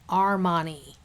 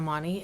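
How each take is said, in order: First: The name is said slowly and distinctly. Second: The name is said quickly and indistinctly. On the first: The speaker calls it right. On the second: The speaker calls it wrong.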